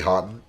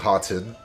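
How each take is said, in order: First: The T sound in the middle is dropped. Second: The T sound in the middle is pronounced. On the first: "I say Houghton, like how they you know like cut the T's" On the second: "instead of saying Houghton"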